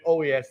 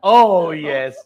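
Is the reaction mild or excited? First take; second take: mild; excited. First: It sounds mild and unexcited. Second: It sounds very excited and enthusiastic.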